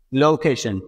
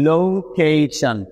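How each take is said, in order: First: Said in the usual way. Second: location stretched out very slowly, every syllable drawn long; slow modelled word. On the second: Shown as a demonstration. Teacher modelling location for students, very slow and drawn out. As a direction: draw out location slowly so learners hear each part. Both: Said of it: "যদি আমরা এগুলোকে একসাথে বলি".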